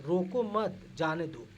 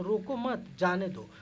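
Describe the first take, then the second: First: "रोको मत जाने दो" run together slowly; no pause. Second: Slow "रोको" with a full stop, then "मत जाने दो"; full stop after roko. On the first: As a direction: let "रोको" flow straight into "मत जाने दो". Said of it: "अब हम ऐसे करें". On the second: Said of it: "पूर्ण विराम लग गया तो". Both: Shown as a demonstration.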